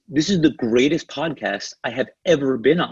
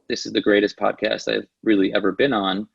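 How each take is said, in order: First: The voice is lively, varied and excited. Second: The voice is flat, monotone and unexcited. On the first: The speaker truly believes in what they say. The speaker calls it right. "one I said it with excitement" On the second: The speaker does not really care about it. The speaker calls it wrong. "super monotone, not excited"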